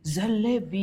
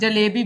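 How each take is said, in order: First: The word is said with pursed lips, affectedly. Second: The word is said in a plain, ordinary way. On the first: "ऐसे बोलते हैं" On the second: "सादा simple में"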